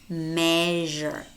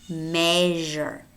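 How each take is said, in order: No difference in how they are said.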